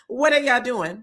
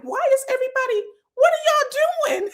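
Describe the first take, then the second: First: Said in the usual way. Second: A cry of "what is going on here"; baffled shout. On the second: Retold or imitated. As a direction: yell it in total disbelief. Speaker's own baffled reaction on set.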